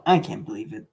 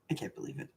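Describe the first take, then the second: First: Said in the usual way. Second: Whispered I can't believe it. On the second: Shown as a demonstration. Gamer repeating in disbelief, whisper. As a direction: breathe it with no voice. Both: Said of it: "repeated whispered".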